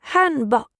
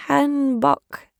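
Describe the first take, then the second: First: "Hanbok" said crisply, stress on HAN; Korean word Hanbok. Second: "Hanbok" tried slowly, a bit higher, stress on HAN; unsure repeat of Hanbok. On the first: The woman names the dress, "Hanbok" said carefully. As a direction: say "Hanbok" like the native speaker. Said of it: "she said". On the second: Repeating the woman's word back, "Hanbok" slow and careful. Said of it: "I said back to her". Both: Acted.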